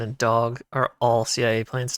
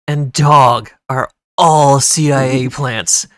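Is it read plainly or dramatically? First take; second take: plainly; dramatically. First: It is read in a plain, normal way. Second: It is read in a dramatic, theatrical way.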